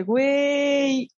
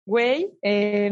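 First: Güey pitched higher with excitement; excited güey. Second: Said in the usual way. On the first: Shown as a demonstration. Showing how an excited friend says güey. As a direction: say güey like you're hyped. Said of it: "cuando estás emocionado".

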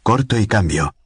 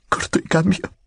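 First: Said in the usual way. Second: Much higher, a desperate rising plea; frightened pleading sign-off. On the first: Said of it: "dijo Godliman suavemente". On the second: A narrator's reading. Lucy signs off to Godliman, desperate and frightened. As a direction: end the message like a prayer for help.

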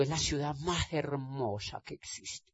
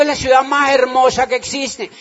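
First: Softly, almost to himself; first answer said quietly, understated; mild soft first take. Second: Repeated louder and higher, insisting. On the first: Answering abroad about Cali, quietly. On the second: Asked again about Cali, he repeats it louder and proud. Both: Retold or imitated. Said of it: "¿Ah?".

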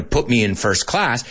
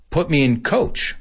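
First: Said in the usual way. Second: Coach. lifted high, put me in said flat; stress on coach. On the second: Shown as a demonstration. Teacher contrasts the phrase, pushing coach. up high. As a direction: land the weight on coach. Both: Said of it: "See how the whole intention in my voice changes".

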